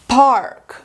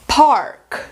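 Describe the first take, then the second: No difference in how they are said.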